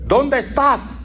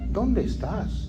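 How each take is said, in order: First: The question is shouted loudly. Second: The question is said quietly and meekly. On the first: The writer sounds forceful in writing. "usted sabe que es un grito" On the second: The person sounds weak face to face. "cuando está en persona dice"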